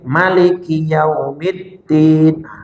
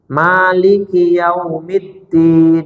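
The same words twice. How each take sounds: First: The first vowel of Maliki is kept short. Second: The first vowel of Maliki is held long. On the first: "Tapi ada yang baca pendek" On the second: "kita bacanya panjang kita. Maliki Yaumiddin dua harokat"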